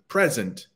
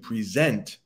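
First: The stress is on the first syllable. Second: The stress is on the second syllable. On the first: It is a noun: a gift. "three different meanings, two different pronunciations" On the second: It is a verb: to give or show something. "three different meanings, two different pronunciations"

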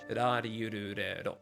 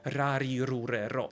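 First: The r sounds are light with little vibration. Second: The r sounds are strongly rolled and vibrating. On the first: The speaker calls it right. "I już to nie drży aż tak bardzo" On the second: The speaker calls it wrong. "twarde r, powiedzmy takie polskie ... Drży, prawda?"

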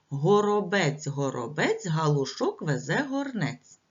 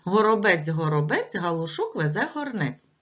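First: The tongue twister is said at a slower pace. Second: The tongue twister is said at a faster pace.

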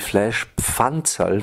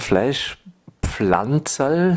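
First: No L sound follows the pf sound. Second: An L sound follows the pf sound. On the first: The name comes from the word for pan. The speaker calls it right. "Das heißt eigentlich" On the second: The name comes from the word for plant. The speaker calls it wrong. "sagen die meisten Leute, ist aber falsch"

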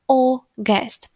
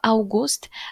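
First: The first vowel sounds like 'o'. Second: The first vowel sounds like 'au'. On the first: The speaker calls it right. "a U wymawiamy jak O" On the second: The speaker calls it wrong. "nie wymawiamy tego August"

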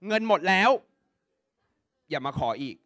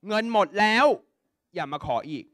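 Both takes have the same delivery.

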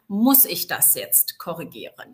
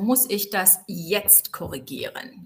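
First: The stress is on the word muss. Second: The stress is on the word jetzt. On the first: Is it really necessary to correct this? "mit der Betonung auf muss" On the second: Does it have to be corrected right now? "als drittes betone ich dann den Zeitpunkt"

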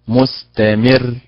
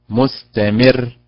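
Both takes have the same delivery.

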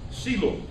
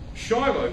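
First: The word begins with an s sound. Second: The word begins with a sh sound.

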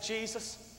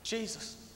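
No difference in how they are said.

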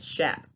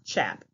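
First: It begins with a soft sh sound. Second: It begins with a hard ch sound. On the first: The speaker calls it right. "that's how you say it. ... The CH sounds like an SH" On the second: The speaker calls it wrong. "It's not chap"

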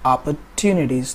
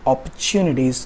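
First: American accent, with a plain t sound. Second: British accent, with a ch sound.

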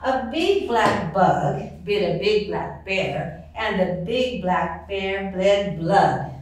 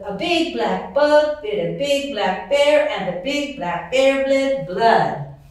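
First: It is said at a slower pace. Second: It is said at a faster pace.

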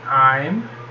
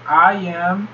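First: It is said as one contracted syllable. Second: It is said as two full words. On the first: "forma contraída" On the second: "forma não contraída"

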